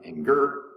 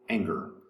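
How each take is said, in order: First: The stress is on the second syllable. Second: The stress is on the first syllable. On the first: The speaker calls it wrong. "not anger" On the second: The speaker calls it right. "the first syllable is accented"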